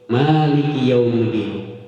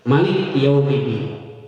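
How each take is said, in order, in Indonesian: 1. Vokal pertama 'ma' dibaca panjang. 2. Vokal pertama 'ma' dibaca pendek. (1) "Ma di situ panjang" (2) "Malik tidak dipanjangkan maknya"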